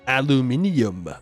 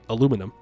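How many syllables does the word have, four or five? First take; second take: five; four. First: The word is said with five syllables. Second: The word is said with four syllables. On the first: The speaker calls it wrong. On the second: The speaker calls it right.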